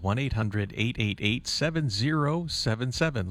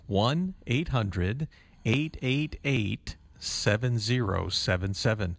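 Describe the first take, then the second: First: The number is read at normal speed. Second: The number is read slowly.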